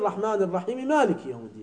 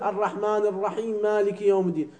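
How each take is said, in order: First: الرحمن الرحيم مالك said lreħman eraħimim aliki, quick and linked by final vowels; fast correct connected recitation; right: joined with vowels. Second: الرحمن الرحيم مالك يوم الدين run on, each final letter stopped silent; running the words on while stopping each final letter; wrong: joined but stopped. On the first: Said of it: "إذا وصلت تقول". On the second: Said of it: "لا تقول". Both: Shown as a demonstration.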